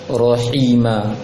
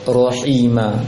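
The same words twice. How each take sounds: No difference in how they are said.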